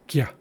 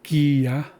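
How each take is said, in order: First: The syllable is said very quickly. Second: The syllable is drawn out slowly. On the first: The speaker calls it right. "It's very fast, very quick" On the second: The speaker calls it wrong. "it's not gya"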